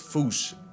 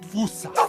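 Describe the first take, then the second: First: It is said in the Malagasy-style way. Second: It is said in the American way. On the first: It is closest to the original Malagasy name. The speaker calls it right. "the correct way to say it is foosh" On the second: It is how Americans say the name. The speaker calls it wrong. "Americans saying fossa"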